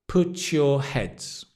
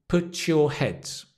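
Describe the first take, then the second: The two takes are said the same way.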